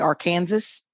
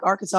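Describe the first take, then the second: First: The final s is pronounced aloud. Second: The final s is silent. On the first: The speaker calls it wrong. "a lot of people will say Arkansas" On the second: The speaker calls it right. "the S on the end is silent"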